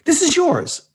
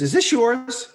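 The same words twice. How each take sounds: First: Very high, disbelieving question; incredulous question. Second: High, quick rising question; casual question. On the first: Some guy to Vespa owner outside apartment, incredulous question. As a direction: pitch way up in mock disbelief. Passer-by asks again in disbelief. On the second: Some guy to Vespa owner outside apartment, curious question. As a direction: imitate a stranger asking, pitched up. Passer-by asks about the Vespa. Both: Retold or imitated.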